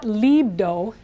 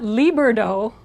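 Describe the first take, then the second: First: The r sounds like an English d. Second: The r sounds like an English r. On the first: "that's the English D of dog" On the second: "there's no English R in it"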